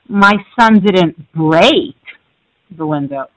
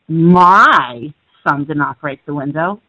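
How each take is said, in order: First: The word "break" carries the stress. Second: The word "my" carries the stress. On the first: The window was damaged but not broken. "he just cracked it" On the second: Someone else's child broke it. "you're implying somebody else's did"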